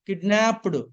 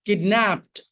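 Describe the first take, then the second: First: The ending is an extra syllable. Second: The ending is a plain t sound. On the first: The speaker calls it wrong. "ఇలా చదవకూడదు" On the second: The speaker calls it right. "ఈడిని టాలా చెప్పాలండి"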